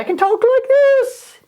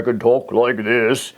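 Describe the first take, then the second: First: Very high squeaky voice, a bit louder; high voice demo. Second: Dropped into a lower, deeper register; low voice demo. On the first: Teacher demonstrating frequency to class, very high squeaky voice. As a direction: jump way up into a squeak to show one frequency. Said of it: "And that's one frequency". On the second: Teacher demonstrating frequency to class, low deep voice. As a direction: drop the voice down low to show another frequency. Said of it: "And that's another frequency". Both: Shown as a demonstration.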